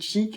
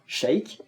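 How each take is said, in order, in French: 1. Le nom se dit avec une voyelle 'ee'. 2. Le nom se dit avec une voyelle 'ay'.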